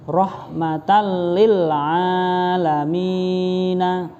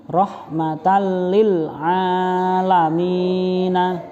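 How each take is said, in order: The two takes are said the same way.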